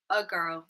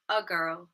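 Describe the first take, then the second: First: The article has a weak schwa vowel. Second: The article has a weak schwa vowel.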